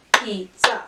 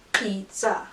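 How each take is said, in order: First: "Pizza" in two separated beats, piz-za; chunked into syllables. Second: Said in the usual way. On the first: Shown as a demonstration. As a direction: punch out each syllable of "Pizza". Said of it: "chunk things into syllables". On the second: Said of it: "We're gonna start with syllables".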